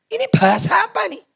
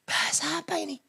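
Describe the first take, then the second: First: High, voiced cry of bewilderment; incredulous high-pitched question; astonished scientist. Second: Hushed, high-pitched amazement; soft astonished question; baffled scientist. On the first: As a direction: ask it aloud in amazement, pitched right up. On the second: Acted. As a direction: whisper it in stunned disbelief. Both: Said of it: "Saintis bilang".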